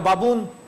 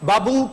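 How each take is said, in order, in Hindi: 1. शब्द एक स्पष्ट अंतिम n के साथ समाप्त होता है। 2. शब्द अंतिम n के बिना समाप्त होता है।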